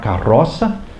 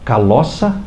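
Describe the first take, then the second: First: The middle consonant is a trilled R sound. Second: The middle consonant is an L sound. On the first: The speaker calls it right. "eu não conseguia falar carroça" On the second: The speaker calls it wrong. "eu falava caloça"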